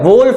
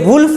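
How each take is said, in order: First: The vowel sounds like 'oh' in 'go'. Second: The vowel sounds like 'oo' in 'book'. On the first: The speaker calls it right. "वोल्फ होता है" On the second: The speaker calls it wrong. "ये वुल्फ नहीं होता"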